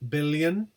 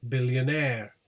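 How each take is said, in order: First: BILLION stressed on BIL; stress on first syllable. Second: BILLIONAIRE with main stress on AIRE; stress on suffix. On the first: Teacher contrasting word with suffixed form, stress on BIL. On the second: Teacher showing stressed suffix, stress on AIRE. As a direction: land hard on the end of billionaire, AIRE. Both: Shown as a demonstration. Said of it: "the suffix is stressed".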